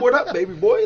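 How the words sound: It sounds relaxed and natural.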